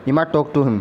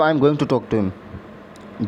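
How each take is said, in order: First: 'I am going to' is reduced to 'imma'. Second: 'I am going to' is said as full words.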